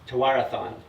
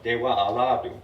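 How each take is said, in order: First: It is said in an anglicized way. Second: It is said in a Mohawk-style way. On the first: This is how broadcasters usually say it. The speaker calls it wrong. "what you hear all the time on E S P N" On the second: This is how the original Mohawk word sounds. The speaker calls it right. "it actually is pronounced more like"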